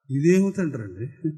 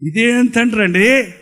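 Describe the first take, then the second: First: ఇదేం తండ్రి అండి asked softly, rising at the end; soft dismayed question. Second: ఇదేం తండ్రి అండి said slowly with a falling అండి; slow indignant repeat. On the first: Preacher to the congregation, quietly asking what kind of father that is. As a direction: murmur it in quiet disbelief. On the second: Preacher repeating the question to the congregation, slow and indignant. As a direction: drag it out, leaning on అండి. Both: Shown as a demonstration.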